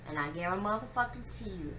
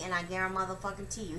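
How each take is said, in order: First: Said in the usual way. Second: Fast, run-together vow; quick emphatic repeat; rushed vow. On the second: Real, not acted. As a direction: rattle it off quickly.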